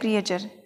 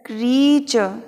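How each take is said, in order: First: It starts with two vowels, kri-ay. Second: It starts with one long vowel, kree. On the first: The speaker calls it wrong. "आज तक इसको अपन ने क्रिएचर बोला है" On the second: The speaker calls it right. "अब इसको बोलने का तरीका क्रीचर"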